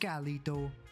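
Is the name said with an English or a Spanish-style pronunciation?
Spanish. The name is attempted with a Spanish-style rolled R. "I can't roll my R worth a damn"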